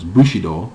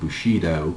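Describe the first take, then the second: First: It is said with a Japanese pronunciation. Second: It is said with an American pronunciation.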